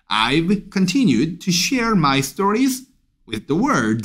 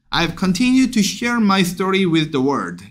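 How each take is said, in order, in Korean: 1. 목소리가 세게 유지되고, 마지막 단어를 강조해요. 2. 끝에서 목소리가 가라앉으면서 작아져요. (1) "월드에 강세 빡 두시고요" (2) "잉 내려가잖아요 ... 이렇게 되면 안 됩니다"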